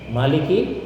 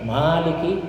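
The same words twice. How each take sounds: First: The vowel after the m is short. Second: The vowel after the m is long. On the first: The one who rules. "Mau pendek mimnya" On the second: The one who owns. "panjang mimnya"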